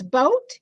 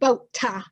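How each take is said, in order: First: The word ends cleanly on the final consonant. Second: An extra weak vowel follows the final consonant. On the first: The speaker calls it right. "If it's boat" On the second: The speaker calls it wrong. "it's not boat-ta"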